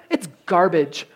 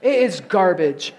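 First: Said in the usual way. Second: Insist: "It IS garbage"; "is" pressed hard, like settling an argument; stress on IS. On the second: Real, not acted. Repeats, insisting it's garbage.

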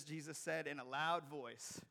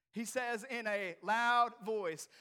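First: Said in the usual way. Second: Slow, raised, booming build-up; loud, emphatic reading. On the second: A narrator's reading. Preacher announces how Jesus called Lazarus, loud and drawn out. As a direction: draw each word out loudly. Verse repeated with force.

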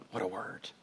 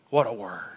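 First: Hushed echo. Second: Said in the usual way. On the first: Shown as a demonstration. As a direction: repeat it much softer and lower. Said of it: "repeated hushed". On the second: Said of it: "repeated line".

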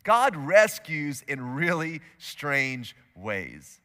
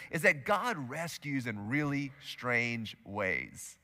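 First: Slow, emphatic repeat of the big idea. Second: Slow and softer, God rescues in really strange ways; quiet, slow key idea; slow, soft statement. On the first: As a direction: hammer God rescues in really strange ways home. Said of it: "here's today's big idea". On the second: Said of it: "I want you to write this down". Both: Shown as a demonstration.

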